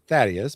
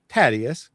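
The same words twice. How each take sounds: First: The name begins with a 'th' sound. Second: The name begins with a plain 't' sound. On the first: This is not how the other person said it. "not Thaddeus" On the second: This is how the other person said it. "but Thaddeus, because he has a real issues with T H sound"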